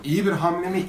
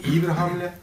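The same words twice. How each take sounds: First: "İyi bir hamle mi?" asked with a rising question tune; "İyi bir hamle mi?" posed as a real question, voice lifting at "mi"; asking tune. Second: "İyi bir hamle." answered with a falling statement tune; "İyi bir hamle." said as a firm answer, stress on "İyi". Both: Shown as a demonstration.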